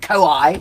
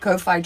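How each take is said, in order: First: The middle consonant sounds like a W. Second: The middle consonant sounds like an F. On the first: This is the older way it was said. "we used to call it koi when I was growing up as a kid" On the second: This is the way it is said now. "W H's are pronounced like F's in New Zealand"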